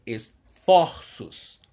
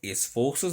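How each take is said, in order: First: Esforços stretched slowly, open O as in "fórços"; open o, right take. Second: Esforços said with closed O as in "fôrços"; closed o, wrong take. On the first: Teacher stretches esforços to show the open O. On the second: Teacher shows the wrong vowel in esforços. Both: Shown as a demonstration. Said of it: "Esforços não".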